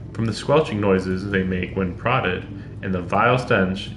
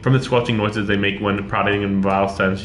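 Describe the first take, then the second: First: It is read at a natural, expressive pace. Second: It is read very quickly, rushing through. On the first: The speaker calls it right. "I'd rather say, like" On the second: The speaker calls it wrong. "Not reading it a mile a minute. I couldn't read it that way"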